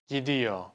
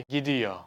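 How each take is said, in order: The two takes are said the same way.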